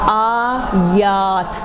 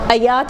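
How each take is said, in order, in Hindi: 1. पहला स्वर खींचकर लंबा बोला गया है। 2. पहला स्वर छोटा और झटके से बोला गया है। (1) "अब कोई छोटा बना ले, और ये बहुत कॉमन गलतियाँ है" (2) "अयात नहीं"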